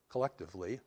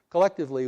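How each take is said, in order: First: Said in the usual way. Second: Collectively punched much higher and louder, falling; stress on collectively. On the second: Shown as a demonstration. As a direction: hit collectively hard and high, then drop. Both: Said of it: "repeated word, second louder".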